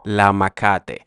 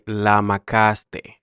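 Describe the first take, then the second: First: The s sound before the t is dropped. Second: The s sound before the t is pronounced.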